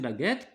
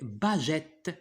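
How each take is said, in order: First: The g is hard, like in go. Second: The g is soft, like a j sound. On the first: The word is read with the u in its spelling. The speaker calls it right. "pour la prononcer baguette, qu'est-ce qu'on doit utiliser? On doit mettre U" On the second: The word is read as if spelled without the u. The speaker calls it wrong. "si on supprime U, ça va se prononcer baguette"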